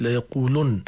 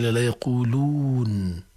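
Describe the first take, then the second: First: "يقولن" as yaqulunn, u before a held n; damma on the lam. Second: Slow "يقولون" with long uu before held n; original long waw. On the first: Teacher quotes the verse, "يقولن" with short u. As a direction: end "يقولن" on u and doubled n. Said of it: "هذه ضمة اللام". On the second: Teacher restores the origin, long uu in "يقولون". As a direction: draw out the uu of "يقولون". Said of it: "أصل". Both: Shown as a demonstration.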